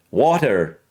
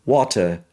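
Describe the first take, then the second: First: "water" with flapped T and sounded R; American pronunciation. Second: British "water", crisp T, no R; British accent. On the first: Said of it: "When I speak with the American". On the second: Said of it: "in the British version". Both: Shown as a demonstration.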